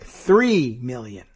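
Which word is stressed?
three. The stress is on three.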